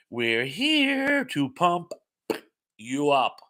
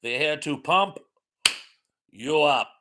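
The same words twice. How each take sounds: First: Drawn-out catchphrase. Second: Hammed-up mock German accent; fake German accent. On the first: Acted. Reading a catchphrase to the chat, slow and drawn out. First take of quoted catchphrase. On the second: Shown as a demonstration. Redoing the catchphrase for the chat, fake German accent. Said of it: "do that in my fake German accent".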